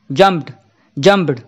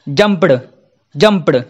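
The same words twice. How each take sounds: First: जंप्ड ending in a soft, held-in ट sound. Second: जंप्ड ending in a full, clearly voiced ड; wrong full d ending. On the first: Teacher shows the right way to say जंप्ड, soft ट. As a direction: say जंप्ड with a light unreleased ट instead of ड. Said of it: "आपको बस टा बोलना है". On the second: Teacher shows the wrong way to say जंप्ड, full ड. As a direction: say जंप्ड with a fully released ड sound at the end. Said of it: "बुरा लगता है सुनने में, इसलिए इसको ऐसा नहीं बोलेंगे". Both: Shown as a demonstration.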